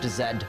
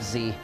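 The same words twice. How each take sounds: First: The letter is said as 'zed'. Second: The letter is said as 'zee'. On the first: The speaker calls it right. "it is pronounced Z" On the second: The speaker calls it wrong. "not Z"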